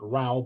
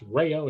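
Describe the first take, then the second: First: The two vowels run together with no glide. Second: A 'y' glide joins the two vowel sounds. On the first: The speaker calls it wrong. "everybody makes that mistake" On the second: The speaker calls it right. "pronounced as if there were a Y between the A and the O"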